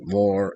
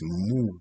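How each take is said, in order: First: The word rhymes with door. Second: The word rhymes with moo. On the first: The speaker calls it wrong. "I don't pronounce it more as an I for door" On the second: The speaker calls it right. "It's, it's Moor"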